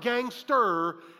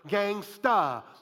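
First: The word ends with an r sound. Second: The word ends with an open ah sound. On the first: The speaker calls it wrong. "Not gangster" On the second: The speaker calls it right. "You have to say it that way"

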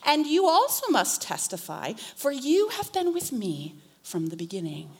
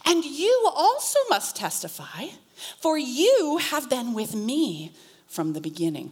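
First: It is read quickly at full speed. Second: It is read slowly and dramatically. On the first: "I'm going to read it at full speed" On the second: "that was almost more dramatic"

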